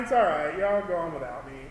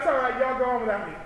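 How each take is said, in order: First: It sounds sad and disappointed, wishing to join. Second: It sounds impatient, eager for the others to go. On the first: The speaker wishes they could go too. "you really wish you had written that paper earlier" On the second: The speaker wants the friends to leave. "Like that means like, please leave. I, I'm busy"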